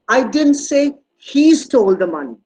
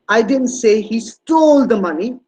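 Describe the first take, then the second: First: The stress falls on the word "he". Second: The stress falls on the word "stole". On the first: Someone else may have taken the money. "It was it could be somebody else" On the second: He did something with the money other than steal it. "He must have done something else with the money, but it's not stealing"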